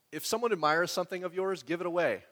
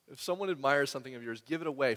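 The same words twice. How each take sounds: First: Reading it out. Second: Said in the usual way. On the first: Shown as a demonstration.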